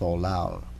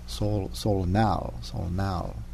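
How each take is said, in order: First: The second syllable begins with an l sound. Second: The second syllable begins with an n sound. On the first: The speaker calls it wrong. "versus Solal" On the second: The speaker calls it right. "it's more pronounced, I think, Solnal"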